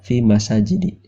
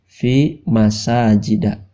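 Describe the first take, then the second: First: The last word ends with an 'i' vowel. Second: The last word ends with an 'a' vowel. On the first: The speaker calls it wrong. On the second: The speaker calls it right. "Di sini dibacanya"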